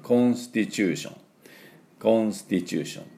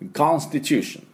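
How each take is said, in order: First: It is said with Japanese katakana-style sounds. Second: It is said with native English sounds. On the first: "ちょっとカタカナ英語でいきますと" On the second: "ネイティブの音で言うと"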